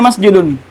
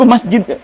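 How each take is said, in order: First: The word ends with an added -un ending. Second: The word ends on a bare final consonant. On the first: The speaker calls it right. "Pasti dibaca masjidun" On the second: The speaker calls it wrong. "Tidak ada suku masjid"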